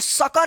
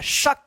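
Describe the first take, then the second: First: The word ends with an added 'a' vowel. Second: The word ends on the bare 'k' consonant. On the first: The speaker calls it wrong. "इसको सका नहीं पढ़ते हैं" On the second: The speaker calls it right. "Last वाला जो अक्षर है क, इस पे जल्दी उच्चारण हो जा रहा है"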